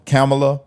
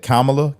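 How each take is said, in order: First: Kamala as CAM-uh-luh; first syllable CAM. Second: Kamala as COMM-uh-luh; first syllable COMM. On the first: Commentator running through versions of the name, Kamala as CAM-uh-luh. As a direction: stress the first syllable of Kamala, vowel as in cat. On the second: Commentator running through versions of the name, Kamala as COMM-uh-luh. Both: Shown as a demonstration. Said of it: "however you say it".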